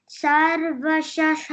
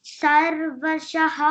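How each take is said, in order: No difference in how they are said.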